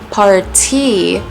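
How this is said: The middle t is a crisp t sound. "Party is more English sounding"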